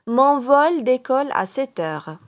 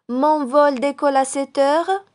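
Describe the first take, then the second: First: It is said with statement intonation. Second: It is said with question intonation. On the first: It states a fact. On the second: It asks whether this is true.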